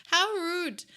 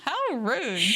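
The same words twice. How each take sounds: First: Mock indignant. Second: High mock outrage; mock indignant. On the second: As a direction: play scandalized.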